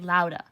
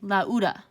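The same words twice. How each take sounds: First: The two vowels blend into one sound. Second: The two vowels are said as separate sounds. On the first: The speaker calls it right. "You would say lauda. ... these two are being pronounced as one vowel together" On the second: The speaker calls it wrong. "you would not say lauda"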